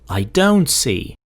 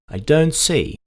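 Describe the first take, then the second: First: The stress falls on the word don't. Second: The stress falls on the word see. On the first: "Or if you go don't, don't see" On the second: "See, don't see"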